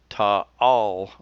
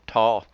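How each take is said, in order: First: The vowel is said as two sounds. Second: The vowel is said as one sound. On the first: The speaker calls it right. "You pronounce both A's" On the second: The speaker calls it wrong. "I don't say that right"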